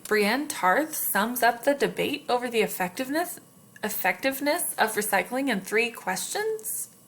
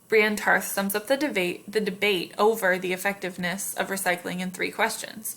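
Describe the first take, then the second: First: It is said as a question, rising. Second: It is said as a statement, falling.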